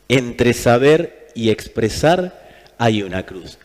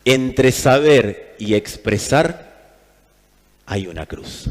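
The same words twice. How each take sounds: The two takes are said the same way.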